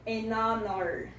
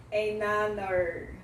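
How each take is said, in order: First: 'an honor' slowly, silent h, drawn out; 'an honor' stretched slowly as a model; example pronunciation. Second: 'an honor' slowly, 'an' with an open a; 'an honor' stretched, open vowel in 'an'; alternative pronunciation. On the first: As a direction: say 'an honor' with the n linked into a vowel. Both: Shown as a demonstration. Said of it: "como você preferir a pronúncia".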